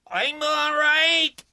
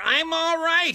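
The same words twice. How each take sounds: First: High, loud, slow yell; reassuring yell. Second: High, loud yell; reassuring yell. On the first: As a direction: yell it to calm her down. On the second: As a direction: shout it again to reassure. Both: A narrator's reading. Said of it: "Briggs yelled to reassure her".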